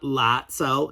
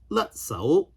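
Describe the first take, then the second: First: The first vowel sounds like the 'a' in 'lat'. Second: The first vowel sounds like the 'u' in 'lut'. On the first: The speaker calls it wrong. "not Latzao" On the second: The speaker calls it right. "it should be pronounced la la Latzao"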